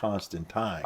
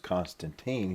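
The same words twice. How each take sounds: First: The name is said in the English way. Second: The name is said in the American way. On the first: "The proper pronunciation is" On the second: "he's not known as Constantine"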